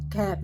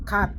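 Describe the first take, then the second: First: "cat" with a short, quick American vowel. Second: "cat" said the way it was heard back then, vowel drawn out; old-style cat. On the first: Teacher showing the American "cat", short vowel. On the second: Teacher showing how the old lesson said "cat", stretched vowel. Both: Shown as a demonstration. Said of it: "short vowel at saka long vowels".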